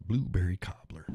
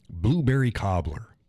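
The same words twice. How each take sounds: First: Whispered, breathy repeat of the coffee name; just breathe the name out. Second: Said in the usual way. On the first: Shown as a demonstration. Host whispering the coffee name back to listeners.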